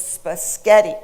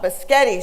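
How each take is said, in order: First: "spaghetti" said slowly as spuh-SKET-ee; slow, emphatic "spaghetti" with an extra K, spuh-SKET-ee; child's mistaken correction. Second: "biscotti" said as buh-SKET-ee; child's spaghetti without its first S, "biscotti" as buh-SKET-ee; quoted mispronunciation. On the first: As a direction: imitate a three-year-old correcting with "spaghetti" as spuh-SKET-ee. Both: Retold or imitated. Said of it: "was incensed at the pronunciation".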